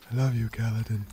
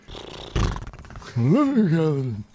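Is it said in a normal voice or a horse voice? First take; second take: normal voice; horse voice. First: It is said in a normal voice. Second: It is said in a put-on horse voice.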